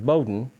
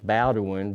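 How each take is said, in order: First: The name is pronounced the local way, proudly. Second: The name is pronounced the way it is spelled. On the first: The speaker calls it right. "they pronounce it very proudly" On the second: The speaker calls it wrong. "It looks like it's Bowdoin"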